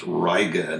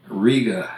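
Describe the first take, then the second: First: "Riga" as "RYE-ga"; Americanized "Riga", slow, opening like "rye"; New York town pronunciation. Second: "Riga" as "REE-ga"; "Riga" higher and louder, opening like "ree"; Latvian capital pronunciation. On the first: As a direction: say "Riga" with an "eye" vowel. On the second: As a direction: say "Riga" with a long "ee". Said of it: "becomes Riga". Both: Shown as a demonstration.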